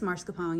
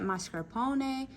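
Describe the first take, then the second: First: It is said the casual, Americanized way. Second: It is said the careful, Italian-like way. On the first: "but it's mascarpone, y'all" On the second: "I say it that way because that's how, one, that's how you say it"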